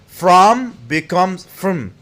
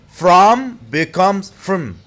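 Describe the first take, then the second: Both takes have the same delivery.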